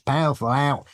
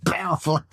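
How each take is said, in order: First: A light Australian go at "Powerful owl", vowels squashed as "pafa lout"; Australian accent attempt. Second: A stab at Australian, lightly done; Australian accent attempt. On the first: Guest sounding out the owl's name for listeners, light Australian accent. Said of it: "tell us how to say that without sounding crazy". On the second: Guest trying the Aussie word for the host, mild Australian accent. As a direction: try the word the Australian way, higher. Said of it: "Try saying". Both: Shown as a demonstration.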